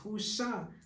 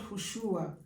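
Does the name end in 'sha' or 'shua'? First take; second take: sha; shua. First: The name ends with a 'sha' sound. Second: The name ends with a 'shua' sound. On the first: The speaker calls it right. "it's Husha" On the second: The speaker calls it wrong. "it's not Hushua"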